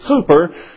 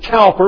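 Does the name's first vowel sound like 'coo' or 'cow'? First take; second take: coo; cow. First: The first vowel sounds like 'coo'. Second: The first vowel sounds like 'cow'. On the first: This is how the English say it. "the English pronounce it Cooper" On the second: This is how many people say it. "Many people would pronounce it Cowper"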